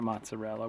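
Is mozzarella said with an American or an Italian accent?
American. It is said with a plain American accent. It is the ordinary everyday way to say it. The speaker calls it right. "Just call it mozzarella"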